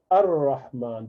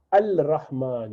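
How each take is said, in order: First: Ar-Rahman with the lam dropped and the r doubled; correct form. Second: Al-Rahman with the lam sounded; wrong form. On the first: Teacher giving the right reading. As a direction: glide straight into the r of Ar-Rahman. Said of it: "you say". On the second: Teacher showing the mistake to avoid. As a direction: say the l in Al-Rahman clearly. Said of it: "you do not say". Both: Shown as a demonstration.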